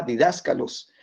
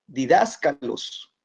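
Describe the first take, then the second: First: Didáscalos with the stress on DÁS, di-DÁS-ca-los; teacher marking the accent on didáscalos, DÁS stressed. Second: Didáscalos spelled out slowly, di-dás-ca-los; introducing the Greek word didáscalos, slow and deliberate; slow careful term. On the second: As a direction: lay out didáscalos slowly for the class. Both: Shown as a demonstration. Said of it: "El acento en la A".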